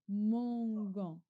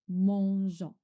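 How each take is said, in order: First: The g is hard, as in 'go'. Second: The g is soft, like the 's' in 'measure'. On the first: "sans le E, je lis mangon" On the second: "Je rajoute E"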